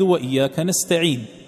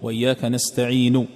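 First: The final sound ends with no vowel at all. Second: The final sound ends with a faint, partial vowel. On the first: "وقفت عليها ساكنة بغير إشمام" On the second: "هذه استعين الأخيرة تعطيها ثلث الصوت فقط"

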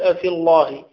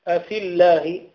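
First: The l sound is heavy and thick. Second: The l sound is light and thin. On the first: The speaker calls it wrong. "لا تقول أفي الله" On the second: The speaker calls it right. "إذا كان قبل اللام كسر فإنها ترقق"

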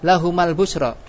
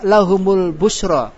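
First: The vowel after the m is a. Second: The vowel after the m is u. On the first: The speaker calls it wrong. "Boleh gak fathah?" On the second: The speaker calls it right. "Kenapa memakai harokat doma?"

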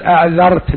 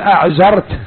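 First: The middle consonant is a soft 'dh' sound. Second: The middle consonant is a buzzing 'z' sound. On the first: "ما يستطيع يقول أعذرت بالذال" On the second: "بلهجته الحبشية، قال أعذرت"

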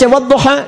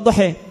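First: The final vowel is an open 'a'. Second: The final vowel is shifted toward 'e'. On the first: "Antum baca wadduha" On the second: "dia baca wadduha"

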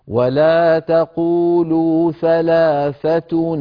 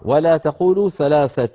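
First: The last word ends in -tuni, linking onward. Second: The last word stops with a plain pausal ending. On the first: The reciter continues into the next word. "فنكسر نون التنوين ونقول" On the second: The reciter stops after this word. "لما نصل نحن ما وصلنا"

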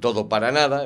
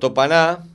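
First: Every syllable of the phrase is clearly pronounced. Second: The phrase is squeezed together with syllables dropped. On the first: The speaker calls it right. "hay que decir todo para nada en vez de topaná" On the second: The speaker calls it wrong. "esta pronunciación relajada, el famoso topaná"

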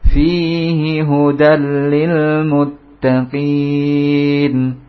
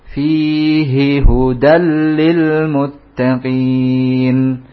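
Both takes have the same delivery.

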